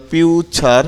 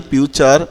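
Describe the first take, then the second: First: "ফিউচার" slowly as piu, char; slow syllables. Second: Said in the usual way. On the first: Shown as a demonstration. Teacher showing t as ch in future, slow syllables. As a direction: split "ফিউচার" before the ch sound. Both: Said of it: "আবার দেখো টিটা ছ".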